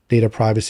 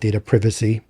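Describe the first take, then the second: First: It is said the American way. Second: It is said the European way.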